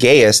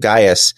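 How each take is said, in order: First: The name is said to rhyme with Zaius. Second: The name is said not rhyming with Zaius. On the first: The speaker calls it wrong. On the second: The speaker calls it right.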